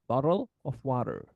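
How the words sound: It is said in an American accent. "so that's in American accent"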